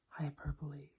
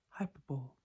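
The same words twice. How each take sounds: First: It is not pronounced the way it is spelled. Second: It is pronounced the way it is spelled. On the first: The speaker calls it right. "but it is pronounced hyperbole" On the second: The speaker calls it wrong. "many people pronounce this as hyperbole... because that is how it's spelled"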